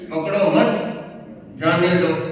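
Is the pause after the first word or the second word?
second word. The pause comes after the word मत.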